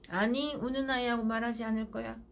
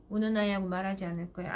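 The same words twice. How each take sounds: First: Calm and firm, flat of feeling; firm, no emotion. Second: Brisk and firm, a little faster; firm, no emotion. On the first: Mother refusing to talk to crying child, calm and firm. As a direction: state it steadily, unmoved. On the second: Mother refusing to talk to crying child, brisk and firm. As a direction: say it quickly and flatly. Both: Shown as a demonstration. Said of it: "단호해야 돼요".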